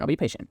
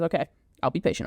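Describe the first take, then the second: First: Lower, sulky muttered repeat. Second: Quick, impatient mock grumble; grudging agreement. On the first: Retold or imitated. Todd repeating to Mrs Lovett, lower sulky repeat. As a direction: drop it down like a grumbling kid. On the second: Todd brushing off Mrs Lovett, fast grudging okay. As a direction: rattle it off to get her off his back. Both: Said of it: "he goes".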